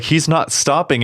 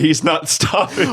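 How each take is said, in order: First: High-pitched stunned disbelief; pure shock. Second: High, drawn-out gleeful delight; pure joy. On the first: Podcaster mimicking a co-host's stunned reaction, in shock. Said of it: "like, pure shock". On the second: Podcaster mimicking a friend's delighted reaction, joyfully. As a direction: stretch it out with mock joy. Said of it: "yours is pure joy". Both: Retold or imitated.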